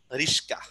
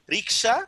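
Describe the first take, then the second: First: রিস্কা with স and ক swapped; swapped sounds. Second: Said in the usual way. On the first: Shown as a demonstration. Teacher showing metathesis with রিস্কা. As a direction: say রিস্কা, স first then ক. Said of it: "প্রথমে এখানে স এসে পড়ছে". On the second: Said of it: "রিক্সা প্রথম বর্ণে ক ছিল".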